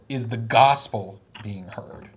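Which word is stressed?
gospel. The emphasis falls on the word gospel. The concern is whether the message taught is true. "the conservatives said"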